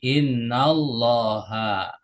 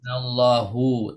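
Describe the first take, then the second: First: The word ends with an 'a' vowel. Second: The word ends with a 'u' vowel. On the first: The speaker calls it right. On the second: The speaker calls it wrong. "Nggak boleh dibaca"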